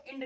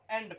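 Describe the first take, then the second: First: 'इंड' with a short i, like 'ind'; wrong 'i' vowel. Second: 'एंड' with an open e, like 'end'; correct 'e' vowel. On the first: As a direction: misread the word as 'इंड', opening on i. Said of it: "इसको इंड नहीं पढ़ते". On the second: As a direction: read the word as 'एंड', opening on e. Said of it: "इसको एंड पढ़ते हैं". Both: Shown as a demonstration.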